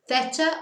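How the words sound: It begins with a lisped 'th' sound. This is the pronunciation used in Spain. "if you don't want to do the lisp"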